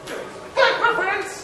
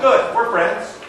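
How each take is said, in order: First: High, squeaky mock Boston accent. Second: Said in the usual way. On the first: Teller redoing his friend accepting the friendship, in a mock Boston accent.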